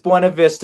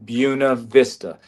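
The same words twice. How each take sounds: First: The name is said with Spanish pronunciation. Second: The name is said with the local pronunciation. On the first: This is how the name is written. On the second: This shows who is local and who is not. "She wanted it pronounced Buena Vista"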